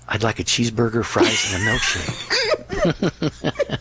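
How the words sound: It is spoken in a whisper.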